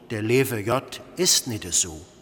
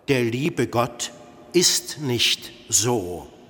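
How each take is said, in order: First: It is said in Cologne dialect pronunciation. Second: It is said in Standard German pronunciation. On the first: "kölschen Dogmen" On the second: "das in Hochdeutsch lautet"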